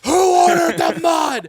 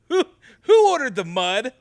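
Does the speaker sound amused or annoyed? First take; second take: annoyed; amused. First: It sounds annoyed and unhappy. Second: It sounds amused and pleased.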